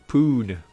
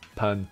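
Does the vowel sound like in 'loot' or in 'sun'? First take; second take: loot; sun. First: The vowel is a long oo, as in loot. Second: The vowel is short, as in sun. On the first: The speaker calls it wrong. "not as loot" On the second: The speaker calls it right. "it's pun as in sun"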